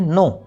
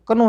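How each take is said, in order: First: The word starts with an n sound. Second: The word starts with a k sound. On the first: The speaker calls it right. "क्योंकि के तो silent है" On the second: The speaker calls it wrong. "कनो नहीं बोलना"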